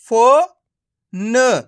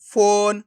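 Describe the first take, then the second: First: फो and न sounded separately, with pauses; syllable by syllable. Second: फोन joined into one drawn-out word; blended word. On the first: Teacher breaking a word up for learners, syllable by syllable. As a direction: draw out फो, pause, then a short न. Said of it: "एक एक करके इनका उच्चारण करना है". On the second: Teacher showing learners the joined result, blended word. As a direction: run फो and न together as फोन, long vowel. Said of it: "तो मिलके बन जाएगा". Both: Shown as a demonstration.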